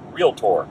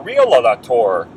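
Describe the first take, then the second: First: No extra vowel between the l and t. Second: An extra vowel is inserted between the l and t. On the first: The speaker calls it right. "someone who can pronounce the name properly" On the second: The speaker calls it wrong. "Some people may say"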